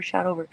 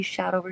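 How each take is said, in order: First: Mocking chant with shout stressed; sing-song taunt, "shout" hit hardest. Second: Mocking chant with over stressed; sing-song taunt, "over" hit hardest. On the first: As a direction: lean on "shout" in "shout over". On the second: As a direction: lean on "over" in "Shout over".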